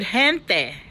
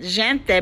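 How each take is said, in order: First: The word begins with a harsh h-like sound. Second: The word begins with a soft j sound. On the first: "you know the word gente" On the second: "pronouncing it gente because the j sound"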